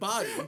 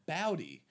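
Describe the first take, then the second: First: The first vowel sounds like the one in body. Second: The first vowel sounds like 'oh', as in bowl. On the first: The speaker calls it wrong. "You said it wrong. You said body" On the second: The speaker calls it right.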